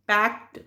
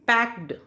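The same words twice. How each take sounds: First: पैक्ड with a crisp "t" at the end, like "pakt"; पैक्ड pronounced "pakt". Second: पैक्ड with a voiced "d" at the end; ending as written. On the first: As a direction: say पैक्ड ending on voiceless t. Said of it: "इसके लिए हमने टी". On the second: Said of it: "ये जो E D है इसके लिए". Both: Shown as a demonstration.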